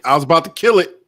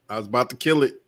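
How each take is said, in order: First: Raised voice, pitch a little up; louder exclamation. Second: Said in the usual way. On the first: Real, not acted. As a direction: blurt it out with sudden force. Repeats line, louder first take.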